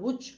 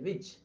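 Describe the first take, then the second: First: The word begins with a rounded-lip sound. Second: The word begins with a v-like sound. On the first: The speaker calls it wrong. "ఉచ్ అనకూడదు" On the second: The speaker calls it right. "విచ్ అంతేగాని"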